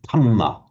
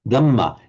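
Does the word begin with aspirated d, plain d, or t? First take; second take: t; plain d. First: The word begins with a t sound. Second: The word begins with a plain, unaspirated d. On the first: This is how Thai speakers say it. "you'll hear the Thai saying" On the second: This is how Burmese speakers say it. "an ordinary d with no uh, aspiration"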